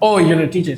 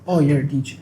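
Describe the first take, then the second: First: Imitating someone impressed; mock impressed reaction. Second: Imitating someone unimpressed; mock dismissive reaction. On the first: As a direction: react as if the job is respected. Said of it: "it's not like". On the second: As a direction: say it as if the job is nothing special. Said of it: "It's like".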